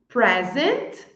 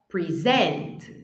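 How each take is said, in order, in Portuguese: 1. A tônica está na primeira sílaba. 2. A tônica está na segunda sílaba. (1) "a primeira coluna ali é o substantivo" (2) "a segunda é o verbo"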